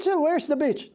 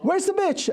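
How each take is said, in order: First: High retold quote; sheepish retelling. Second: High-pitched angry demand with a laugh; angry repeat. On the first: Dad repeating his blunder to the kids in the car. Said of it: "what did you say?". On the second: Retold or imitated. Dad repeating his demand to the boy, angry and laughing. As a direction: bark it again, laughing. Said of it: "I'm, I'm angry".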